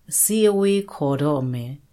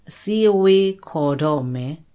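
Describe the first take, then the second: No difference in how they are said.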